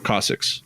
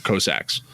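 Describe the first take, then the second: First: "Cossacks" with a short O, like "coss-icks"; "Cossacks" opening like "cot", ending in "icks"; alternative pronunciation. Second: "Cossacks" with a long O, like "coh-sacks"; "Cossacks" opening like "coast"; first pronunciation. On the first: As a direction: say "Cossacks" as KAH-six, reduced second vowel. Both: Shown as a demonstration.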